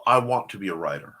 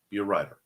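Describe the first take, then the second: First: Lower, mocking the wishful wannabe. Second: Said in the usual way. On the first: Shown as a demonstration. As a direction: say it like a dreamy wannabe.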